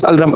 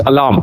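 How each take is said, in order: First: "Alram" with l and r jammed together, al-ram; wrong pronunciation. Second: "alarm" as a-LARM, long second vowel; correct pronunciation. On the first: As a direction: swap the sounds to say "Alram". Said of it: "this word is not pronounced as Alram". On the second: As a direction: open "alarm" on a short a, then "larm". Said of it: "it is alarm". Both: Shown as a demonstration.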